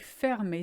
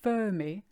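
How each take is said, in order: First: The first e is an open eh sound. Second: The first e is not an open eh sound. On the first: The speaker calls it right. "It's fermé because of that R M after the E" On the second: The speaker calls it wrong. "is not fermé"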